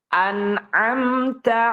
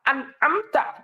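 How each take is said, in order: First: The nun sound is neither stopped nor prolonged. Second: The nun sound is held back and abruptly stopped. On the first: The speaker calls it right. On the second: The speaker calls it wrong.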